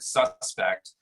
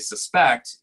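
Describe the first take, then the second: First: It is pronounced as the noun form. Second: It is pronounced as the verb form. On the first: The word names a person or describes something. "when I say it like that, it's it's probably a noun uh, or an adjective" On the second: The word names an action. "when I say suspect, it becomes a verb"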